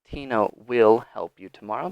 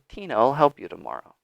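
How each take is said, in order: First: The word will is said fully and separately. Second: The word will shrinks to an L sound. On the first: The speaker calls it wrong. "They won't say" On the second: The speaker calls it right. "They'll say"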